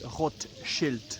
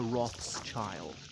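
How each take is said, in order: First: The name is said with a German pronunciation. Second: The name is said with an English pronunciation. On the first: This is the family's original form of the name. "the name actually should be Rothschild, as in red sign" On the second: This is the form adopted after moving to England. "the pronunciation was anglicised to Rothschild"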